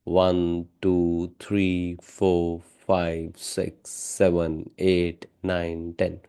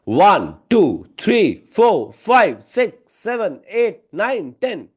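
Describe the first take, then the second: First: The counting is slow, plain and quiet. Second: The counting is loud and quick. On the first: "एक simple, ... मैं धीरे बोल रहा था" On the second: "loud और fast"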